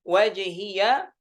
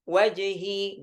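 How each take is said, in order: First: The final y is followed by a vowel. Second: The final y has no vowel after it.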